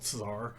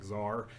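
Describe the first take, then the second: First: The word starts with a ts sound. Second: The word starts with a plain z sound. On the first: "instead of tsar" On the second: "I either just make it a Z, z like czar"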